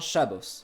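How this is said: The word ends with an 'os' sound. "qui devient Shabbos"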